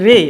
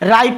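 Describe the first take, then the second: First: The vowel sounds like 'ay'. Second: The vowel sounds like 'eye'. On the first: The speaker calls it right. "एकर के जैसा ध्वनि यहाँ पर उत्पन्न हो रहा है" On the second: The speaker calls it wrong. "ना ही राई पढ़ेंगे इसको"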